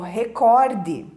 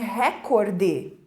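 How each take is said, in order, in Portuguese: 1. A tônica está na segunda sílaba. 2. A tônica está na primeira sílaba. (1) "E é o recorde" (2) "As pessoas dizem recorde"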